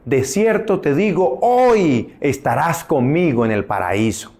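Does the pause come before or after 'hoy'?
before. The pause comes before the word 'hoy'. The promise is that paradise comes today itself. The speaker calls it wrong. "hay muchos que interpretan el texto bíblico"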